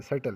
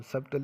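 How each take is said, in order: First: "सटल" going straight to t, no b; silent b. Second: "सटल" misread with b sounded before the t; wrong pronunciation. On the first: Teacher giving students the correct reading, silent b in "सटल". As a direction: say "सटल" as sut-tal. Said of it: "सटल पढ़ेंगे". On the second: Teacher warning students off a reading, b sounded in "सटल". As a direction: say "सटल" as sub-tal, voicing the b. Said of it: "अब सटल नहीं पढ़ेंगे". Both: Shown as a demonstration.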